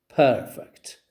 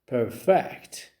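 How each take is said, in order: First: The stress is on the first syllable. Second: The stress is on the second syllable. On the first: "the first one receives stress on the first syllable" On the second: "the second one receives stress on the second syllable"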